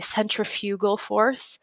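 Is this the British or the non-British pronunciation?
British. It uses the British pronunciation of centrifugal. "If you listen to things from um, the U K, they usually say"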